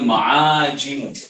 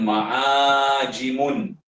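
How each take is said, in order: First: The word ends in a plain 'm' sound. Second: The word ends with an added 'un' sound. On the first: The speaker calls it right. "Disebutnya ma'ajim" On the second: The speaker calls it wrong. "Bukan ma'ajimun. Bukan tanwin"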